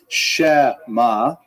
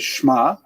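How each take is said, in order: First: The vowel after sh is said in full. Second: There is no vowel after sh at all. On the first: "You don't say shema" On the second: "You don't say shma"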